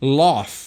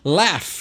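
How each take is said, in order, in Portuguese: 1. É dito com uma vogal britânica fechada. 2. É dito com uma vogal americana aberta. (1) "Em inglês britânico, laugh. Então você tem esse inglês fechado" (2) "Em inglês americano, laugh, né? Aberto"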